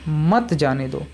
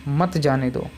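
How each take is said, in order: The two takes are said the same way.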